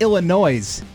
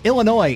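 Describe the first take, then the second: First: The final S is pronounced. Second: The final S is silent. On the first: The speaker calls it wrong. "it's not Illinois" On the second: The speaker calls it right. "it's Illinois, where the S is silent"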